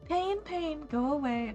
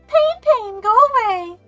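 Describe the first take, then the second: First: It is said in a normal, not childish voice. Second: It is said in a shrill child's voice.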